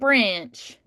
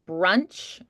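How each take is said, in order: First: The vowel is changed into a different sound. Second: The vowel is said in the normal way. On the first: "you can also kind of morph the vowels" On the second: "instead of just like brunch"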